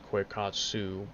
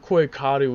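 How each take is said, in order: First: The name ends with a 'tsoo' sound. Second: The name ends with a 'doo' sound. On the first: This is the American English way of saying it. "the American English version is Quakatsu" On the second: This is the original Japanese way of saying it. "the Japanese version of the way it's said"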